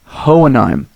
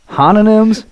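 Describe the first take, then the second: First: The name sounds like 'Hohenheim', with a falling tone. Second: The name sounds like 'Hanonyms', with a rising tone. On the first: The speaker calls it right. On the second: The speaker calls it wrong.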